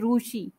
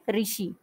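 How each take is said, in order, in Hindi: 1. पहला अक्षर 'ru' की तरह बोला जाता है। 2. पहला अक्षर 'ri' की तरह बोला जाता है। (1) "मराठी में बोलेंगे या गुजराती में तो वो बोलेंगे रूशी" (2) "हिंदी में हम इसको री बोलते हैं"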